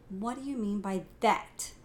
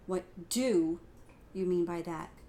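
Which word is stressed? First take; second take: that; do. First: The emphasis falls on the word that. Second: The emphasis falls on the word do.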